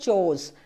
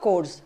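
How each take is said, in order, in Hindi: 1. इस शब्द की शुरुआत ch आवाज़ से होती है। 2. इस शब्द की शुरुआत k आवाज़ से होती है। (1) "इसका असल में प्रोनाउंसिएशन है चोज" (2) "आपको लगता है सी एच से क का साउंड आएगा"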